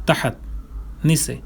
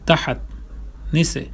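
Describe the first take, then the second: The two takes are said the same way.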